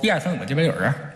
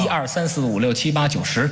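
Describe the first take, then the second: First: It is counted in a mumbled Beijing accent. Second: It is counted in standard Mandarin.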